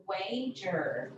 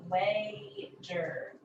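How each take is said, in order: First: Said in the usual way. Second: "Wager" with a held first syllable, then a break; split syllables. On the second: Shown as a demonstration. Teacher showing the first syllable, "Wager" split in two. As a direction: say "Wager" in two separate beats. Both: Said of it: "end of the first syllable".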